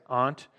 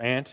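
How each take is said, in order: First: Aunt with a broad British ah, like "ahnt". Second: Aunt said like "ant", short flat a; American aunt. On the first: Real, not acted. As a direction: say aunt the British way, long open ah. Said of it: "I'm not British". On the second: Shown as a demonstration. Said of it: "I don't know why I said that".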